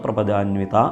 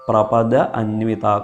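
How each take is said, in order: First: The two words merge into one long word. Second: The two words are said separately, unjoined.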